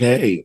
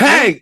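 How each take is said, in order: First: It is said calmly and quietly. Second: It is said suddenly and loudly.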